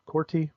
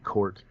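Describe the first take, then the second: First: Corti said as COR-tee, questioning and higher; two-syllable Corti. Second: Cort said as one syllable, ending on the T. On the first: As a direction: try Corti with an ee ending, unsure. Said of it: "I'm gonna say Corti". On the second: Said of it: "It's probably how you pronounce it". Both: Shown as a demonstration.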